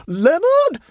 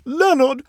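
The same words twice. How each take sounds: First: Very high, loud scream of a name; shrill scream. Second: High, loud imploring call; tearful beseeching. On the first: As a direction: scream shrilly at your nephew in panic. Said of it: "she screamed shrilly to her nephew". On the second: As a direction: implore your nephew by name, tearfully. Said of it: "beseeched Missus Hoops tearfully". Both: A narrator's reading.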